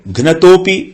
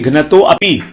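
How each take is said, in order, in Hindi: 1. एक जुड़ा हुआ शब्द, और 'a' ध्वनि मौन रहती है। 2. दो अलग शब्द, और 'a' ध्वनि बोली जाती है। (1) "इस साइलेंट में आ जाएगा अ" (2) "इसको ऐसे नहीं बोलेंगे घ्नतो अपि"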